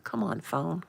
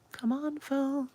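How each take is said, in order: First: Said in the usual way. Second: Much higher pleading to the phone; high whiny plea to the phone; high coaxing plea. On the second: Real, not acted. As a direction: coax the slow phone in a high voice.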